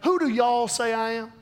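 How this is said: It is said in a country accent.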